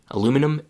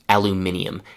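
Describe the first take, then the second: First: It has four syllables, ending in num. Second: It has five syllables, ending in nium. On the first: "in North America, the pronunciation is" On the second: "and in Great Britain, it is aluminium"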